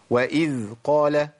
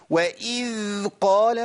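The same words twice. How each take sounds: First: وإذ قال with the ذ flowing briefly then stopping on its own; correct dhal. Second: وإذ قال with the ذ dragged out far too long, slow; overlong dhal. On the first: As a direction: let the ذ in وإذ run a moment, then stop. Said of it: "مشي الذال وخلي الصوت ينقطع لوحده". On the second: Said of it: "واللي بيزود بقى الزمن". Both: Shown as a demonstration.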